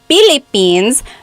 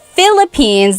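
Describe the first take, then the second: First: The word begins with a P sound. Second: The word begins with an F sound. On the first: "get the P and the F mixed up" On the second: "instead of Philippines"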